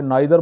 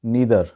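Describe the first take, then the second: First: नाइदर with an "eye" vowel, nye-ther; local pronunciation. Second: नीदर with a long "ee", nee-ther; native English pronunciation. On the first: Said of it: "वहाँ पे नाइदर बोला जाता है". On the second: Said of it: "गोरे इसको बोलते हैं इस तरीके से". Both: Shown as a demonstration.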